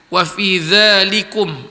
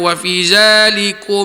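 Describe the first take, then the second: First: The word starts with a soft 'th' sound. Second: The word starts with a buzzing 'z' sound. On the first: The speaker calls it right. "Dza huruf zal. Di hujung lidah" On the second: The speaker calls it wrong. "Berapa ramai yang baca"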